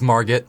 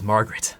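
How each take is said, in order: First: The name is said without a second R sound. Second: The name is said with a second R sound. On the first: The speaker calls it right. "dropping the R makes it sound scarier" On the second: The speaker calls it wrong. "His name is Margaret"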